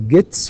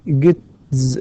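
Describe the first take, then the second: First: The word ends with a voiceless s sound. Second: The word ends with a voiced z sound. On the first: The speaker calls it right. "فنقول gets" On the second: The speaker calls it wrong. "وليس gets"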